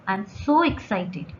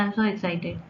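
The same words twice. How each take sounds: First: The voice sounds lively, bright and excited. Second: The voice sounds flat, low and tired. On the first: The speaker seems genuinely excited. The speaker calls it right. "ये correct वे है" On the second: The speaker does not seem excited at all. The speaker calls it wrong. "कुछ excitement लग ही नहीं रही है... लग रहा है आप बहुत टायर्ड हो"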